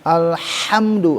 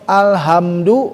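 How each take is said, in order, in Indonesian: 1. Bunyi h-nya jelas dan penuh. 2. Bunyi h-nya lemah dan tidak jelas. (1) "harus jelas haknya" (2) "itu fatal"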